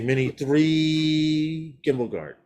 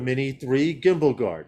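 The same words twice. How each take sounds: First: The phrase is said slowly. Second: The phrase is said quickly. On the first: "I didn't say" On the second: "I said it fast that time"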